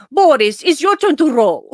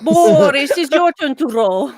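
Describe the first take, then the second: First: Higher, louder Russian-accented Natasha impression. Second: Playful Natasha from Rocky and Bullwinkle, lightly done. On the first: Natasha stopping the rowing to make Boris take over, higher and louder. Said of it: "she would just stop and say". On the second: Pretend. Teasing a podcast co-host about whose turn it is, in a light Natasha voice. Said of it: "I love doing Natasha".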